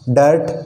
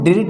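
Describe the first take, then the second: First: The vowel sounds like a neutral 'uh'. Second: The vowel sounds like a short 'ih'. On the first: The speaker calls it right. "आई यहाँ पे किस क्या बोल रहा है, ए बोल रहा है" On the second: The speaker calls it wrong. "अब इसको हम डिर्ट नहीं पढ़ेंगे"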